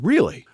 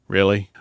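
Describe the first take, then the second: First: It sounds openly receptive, like genuine curiosity. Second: It sounds challenging, like talking back.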